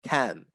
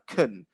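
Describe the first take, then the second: First: The word is said with a full, open vowel. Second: The word is said with a weak, reduced vowel. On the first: The sentence is negative. "if it's negative, it would be can" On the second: The sentence is positive. "that very weak sound"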